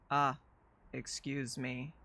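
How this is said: It is said in a robotic voice.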